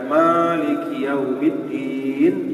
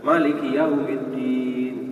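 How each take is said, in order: First: The first vowel of Maliki is drawn out long. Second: The first vowel of Maliki is short. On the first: God is the owner of the Day of Judgment. "kasih alif ya" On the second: God is the king of the Day of Judgment. "tidak pakai alif"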